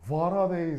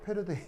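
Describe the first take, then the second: First: The word begins with a w sound. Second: The word begins with a p sound.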